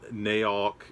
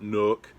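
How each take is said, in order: First: The vowel sounds like the one in cow. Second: The vowel sounds like the one in book. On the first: "It is not Naok" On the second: "It is not Nook"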